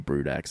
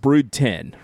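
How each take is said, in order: First: The last part is said as the letter ex. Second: The last part is said as the number ten. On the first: This is the speaker's habitual reading. "if I say Brood X, that's just what I'm gonna say" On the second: This is the official name. "Like it's Brood 10"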